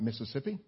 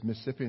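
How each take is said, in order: First: It is said in an outsider's way. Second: It is said in the local way. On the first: This is how people from elsewhere say it. The speaker calls it wrong. "not Mississippi. ... We call folks who say Mississippi, we call them foreigners" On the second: This is how people from the state say it. The speaker calls it right. "It is Mississippi"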